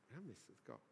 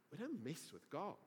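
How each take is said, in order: First: Very soft, low repeat; hushed warning. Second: Said in the usual way. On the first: Real, not acted. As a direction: let the warning sink in, hushed. Repeats the warning, much softer.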